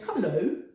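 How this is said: It is said in a cheerful, hearty way.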